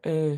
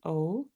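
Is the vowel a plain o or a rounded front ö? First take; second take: rounded ö; plain o. First: The vowel is a front rounded ö sound. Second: The vowel is a plain back rounded o. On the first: "it gives it a ö sound" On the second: "instead of it being O, which it can be in German"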